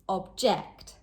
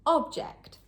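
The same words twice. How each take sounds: First: The stress is on the second syllable. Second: The stress is on the first syllable. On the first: It is a verb meaning to oppose something. "But as a verb, object, on the second syllable" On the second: It is a noun meaning an item or thing. "As a noun, object, on the first syllable"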